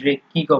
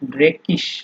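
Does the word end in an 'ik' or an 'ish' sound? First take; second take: ik; ish. First: The word ends with a hard 'ik' sound. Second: The word ends with a soft 'ish' sound. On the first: "অথবা আপনার আ ড্রেকিকও বলা যায়" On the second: "ড্রেকিশও বলা যায়"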